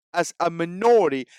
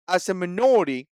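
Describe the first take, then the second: No difference in how they are said.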